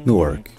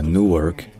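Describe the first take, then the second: First: "Newark" dit vite, voyelle brève; abréger le ou de "Newark"; ou court américain. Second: "Newark" avec ou allongé; ou long américain. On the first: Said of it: "un ou court". (« Newark » avec ou court) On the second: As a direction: tenir le ou de "Newark". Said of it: "un ou long". (« Newark » avec ou long) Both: Shown as a demonstration.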